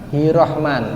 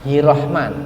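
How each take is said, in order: The two takes are said the same way.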